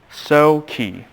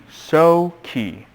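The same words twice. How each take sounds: The two takes are said the same way.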